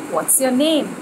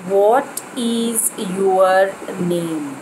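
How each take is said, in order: First: 'What is' is contracted into one syllable. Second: 'What is' is said as two separate words. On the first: The speaker calls it right. "the best way to say it would be" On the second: The speaker calls it wrong. "Never should we say it as"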